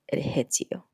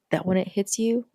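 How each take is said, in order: First: Hushed, unvoiced repeat for weight; whispered. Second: Said in the usual way. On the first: Shown as a demonstration. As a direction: whisper it so it lands. Repeated line, whispered emphasis.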